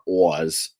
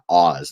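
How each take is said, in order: First: The name is said in a New York accent. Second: The name is said in a neutral accent. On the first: The speaker calls it wrong. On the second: The speaker calls it right.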